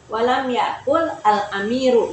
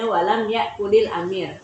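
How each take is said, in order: First: Yakul and al amiru are said as separate words. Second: Yakul links to amir with an added il sound. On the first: "Kalau mau dibaca walam yakul al amiru" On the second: "makanya dibaca walam yakulil amir"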